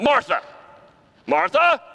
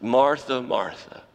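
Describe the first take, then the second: First: High, loud, exasperated scolding. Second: Gentle, falling, tender call; loving. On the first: How Jesus did not say it: a high loud scolding. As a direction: snap the name like a scolding. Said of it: "It wasn't". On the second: How Jesus did say it: tender, falling, loving. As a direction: call her name with love. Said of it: "how you know that the Lord loves her". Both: Shown as a demonstration.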